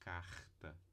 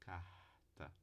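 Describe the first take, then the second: First: The R is a friction at the soft palate. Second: The R is only a light breathy h. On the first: "véu palatino do palato mole" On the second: "o R aqui teria só uma aspiração"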